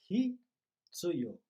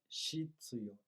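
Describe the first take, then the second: First: The word begins with an h sound. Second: The word begins with an sh sound. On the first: The speaker calls it right. "a pronúncia correta é hitsuyo" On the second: The speaker calls it wrong. "não é shitsuyo"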